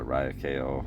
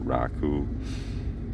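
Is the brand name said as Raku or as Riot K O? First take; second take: Riot K O; Raku. First: The name is said as 'Riot' plus letters K-O. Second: The name is said as two syllables, 'Raku'. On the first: This follows how the name looks written. "I always call it Riot K O" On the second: This is the proper way to say the name. "I think the pr- proper way is to call it uh, Raku"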